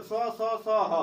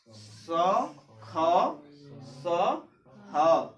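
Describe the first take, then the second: First: स, स, स, ह run together, every sibilant the same; wrong run-together reading. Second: स, ख, स, ह one by one, each distinct; separated correct pronunciation. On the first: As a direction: show the mistake: स, स, स, ह in one go. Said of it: "हम लोग पढ़ते भी गलत हैं". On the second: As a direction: model स, ख, स, ह with a pause after each. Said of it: "इसकी उच्चारण जो है". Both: Shown as a demonstration.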